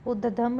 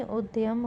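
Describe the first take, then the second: First: उद्यम said as ud-dam, no y; wrong pronunciation. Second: उद्यम said as ud-yam; correct pronunciation. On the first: Teacher showing a spelling error, उद्यम as ud-dam. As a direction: drop the y from उद्यम. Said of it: "नहीं". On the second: Teacher giving the correction, उद्यम as ud-yam. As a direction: sound the y in उद्यम. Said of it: "होगा". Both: Shown as a demonstration.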